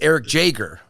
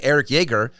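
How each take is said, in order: First: The surname begins with a J sound. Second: The surname begins with a Y sound. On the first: The speaker calls it right. "I found out this weekend it's" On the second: The speaker calls it wrong. "I've been saying"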